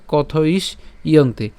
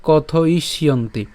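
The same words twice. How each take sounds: First: কথ ইস ইয়ন্তি slowly, split before the "yonti"; slow split pronunciation, "kotho-is, iyonti"; broken into parts. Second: কথ ইষ্যন্তি run together as "kothoishyonti"; slow but unbroken "kothoishyonti"; joined together. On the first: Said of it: "ভেঙে উচ্চারণের ক্ষেত্রে হচ্ছে আলাদা আলাদা". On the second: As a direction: link the sh straight into "yonti" in কথ ইষ্যন্তি. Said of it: "আর একসাথে বললে". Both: Shown as a demonstration.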